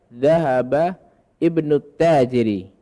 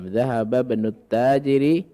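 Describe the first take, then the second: First: The hamzah is pronounced separately before ibnu. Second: The hamzah is dropped and the words are joined.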